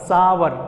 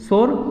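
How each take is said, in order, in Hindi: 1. इसकी शुरुआत 's' से होती है और इसमें दो अक्षर हैं। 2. इसकी शुरुआत 'sh' से होती है और इसमें एक अक्षर है। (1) "इसको हमेशा बोलना है सावर" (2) "शोर हमेशा गलत है"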